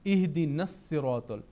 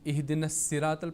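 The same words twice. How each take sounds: First: The s sound is heavy and full. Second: The s sound is light and thin. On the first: The speaker calls it right. "स्वाद का यहाँ पर ख्याल रख रखना चाहिए" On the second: The speaker calls it wrong. "सीन की आवाज़ निकलती है, तो वो गलत है"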